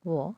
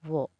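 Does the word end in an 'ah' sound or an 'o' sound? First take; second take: o; o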